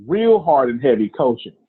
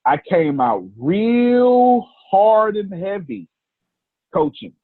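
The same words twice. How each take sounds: First: Said in the usual way. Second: Slow, high, stretched delivery on real hard and heavy; drawn-out emphasis. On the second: Shown as a demonstration.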